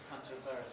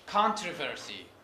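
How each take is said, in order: First: The stress is on the second syllable. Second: The stress is on the first syllable. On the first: "others put it on the second syllable" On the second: "Primary stress is on the first syllable"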